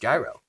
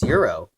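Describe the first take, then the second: First: The word begins with a J sound. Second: The word begins with a Y sound. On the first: This is how Americans say it. "but in America it's gyro" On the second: This is the original pronunciation. "It's euro"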